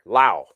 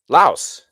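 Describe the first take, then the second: First: The word ends without an s sound. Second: The word ends with an s sound.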